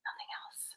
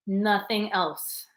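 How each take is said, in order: First: "Nothing else." whispered, no voice. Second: Said in the usual way. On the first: Shown as a demonstration. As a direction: breathe the words out in a whisper.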